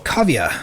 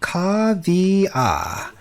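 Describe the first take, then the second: First: The name is said at normal speed. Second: The name is said slowly and deliberately.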